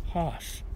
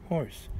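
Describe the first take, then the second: First: "hoss" with no r, rhyming with boss; dialect pronunciation. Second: Said in the usual way. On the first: Acted. Reader rhyming with boss, "hoss" slow and r-less. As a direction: draw out "hoss" to match the rhyme. Bends horse to rhyme with boss.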